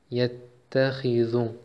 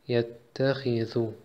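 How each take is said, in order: The two takes are said the same way.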